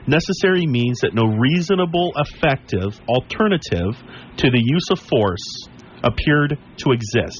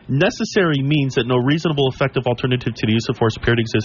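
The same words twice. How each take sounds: First: The sentence is spoken slowly and deliberately. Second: The sentence is spoken quickly, as if memorized. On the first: Each part of the definition is given its full meaning. "if you slow it down and you break it down" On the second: It is a memorized definition recited by rote. "You say it really fast"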